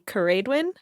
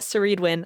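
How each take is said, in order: First: The name begins with a hard K sound. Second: The name begins with a soft S sound. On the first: The speaker calls it right. "I think it's supposed to be" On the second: The speaker calls it wrong. "How we pronounce it"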